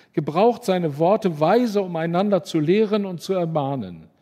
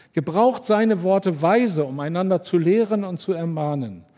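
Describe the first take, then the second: No difference in how they are said.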